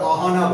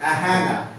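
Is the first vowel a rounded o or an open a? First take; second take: rounded o; open a. First: The first vowel is a rounded o sound. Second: The first vowel is an open a sound. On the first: The speaker calls it wrong. "আমরা কি বলছি ধরো অহনা" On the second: The speaker calls it right. "এরকম ভাবে বলতে হবে"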